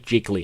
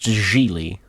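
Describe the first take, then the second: First: The word has a hard g in the middle. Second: The word has no hard g in the middle. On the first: The speaker calls it wrong. "I always want to say Jiggly, and I don't think that's how it's pronounced" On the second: The speaker calls it right. "It's pronounced Geely"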